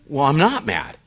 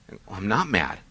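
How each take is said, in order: First: Irritated denial, pushed out harder; getting mad. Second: Said in the usual way. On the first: Retold or imitated. Husband to wife after her pushing, a mildly irritated denial. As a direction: insist you're not mad while clearly annoyed. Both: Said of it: "but I'm getting mad".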